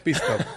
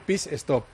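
First: Stop starts directly with the s sound. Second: An e vowel is added before stop. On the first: "puedo decir perfectamente pit stop" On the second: "pero me gusta decir pit stop, porque así la gente lo entiende en casa"

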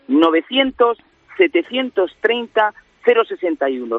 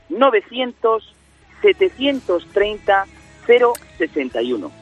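First: The number is said at normal speed. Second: The number is said slowly.

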